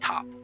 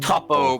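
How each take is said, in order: First: The name is said with one syllable. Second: The name is said with two syllables. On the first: This is the plain pronunciation of the name. "if you're just pronouncing it, its name is just Top" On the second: This is the Japanese pronunciation of the name. "it was the Japanese pronounce"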